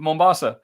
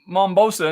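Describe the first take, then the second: First: The middle vowel sounds like 'ah'. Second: The middle vowel sounds like 'oh'. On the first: The speaker calls it right. "instead of Mombasa" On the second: The speaker calls it wrong. "you're genuinely saying Mom, Mombosa"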